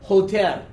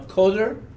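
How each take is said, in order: First: The word starts with a throaty H sound. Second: The word starts with a hard K sound. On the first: The speaker calls it right. "The pronunciation is Hoter" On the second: The speaker calls it wrong. "I pronounced that wrong"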